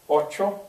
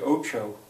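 First: The word is said with careful Spanish pronunciation. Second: The word is said with a careless pronunciation. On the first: The speaker calls it right. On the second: The speaker calls it wrong.

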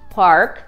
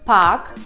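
First: The R sound is clearly pronounced. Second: The R sound is not pronounced. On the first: "Но в американском произносится" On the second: "не произносится он перед согласной в британском английском"

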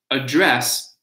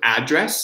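First: The stress is on the second syllable. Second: The stress is on the first syllable. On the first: It is a verb: to speak to someone. "address, verb" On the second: It is a noun: where someone lives. "So address, noun"

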